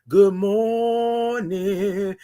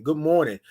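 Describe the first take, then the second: First: Very slow, drawn-out good morning; stretched greeting. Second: Said in the usual way. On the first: Shown as a demonstration. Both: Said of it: "You gotta say it like that".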